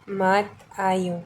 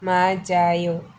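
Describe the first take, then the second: First: The consonant stays separate from the following vowel. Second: The consonant links onto the following vowel. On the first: The speaker calls it wrong. "इस तरह से हम इसे पढ़े तो" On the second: The speaker calls it right. "हम उसे बोलेंगे"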